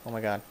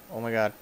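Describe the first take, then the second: No difference in how they are said.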